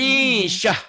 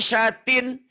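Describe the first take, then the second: First: The word ends with a soft h sound. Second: The word ends with a full -tin syllable.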